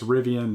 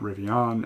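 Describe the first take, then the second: First: The last syllable is said like 'an'. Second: The last syllable is said like 'on'. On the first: The speaker calls it right. "keep reminding me that it's Rivian" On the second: The speaker calls it wrong. "not Rivian"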